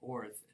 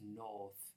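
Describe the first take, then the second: First: It is said in an American accent. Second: It is said in a British accent. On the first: "Instead of north being" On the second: "it's north"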